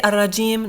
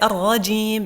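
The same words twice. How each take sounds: First: The r sound is light and thin. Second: The r sound is heavy and full. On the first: The speaker calls it wrong. "We don't say" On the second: The speaker calls it right. "we say الرجيم because over here you have a fatha on top of the ra. Okay, this is heavy"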